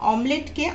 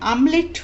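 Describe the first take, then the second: First: The word begins with an open 'o' vowel. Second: The word begins with an 'a' vowel. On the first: "ডিমের অমলেটকে" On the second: "পুরনো দিনে মানুষেরা ... আমলেট উচ্চারণ করে থাকতেন"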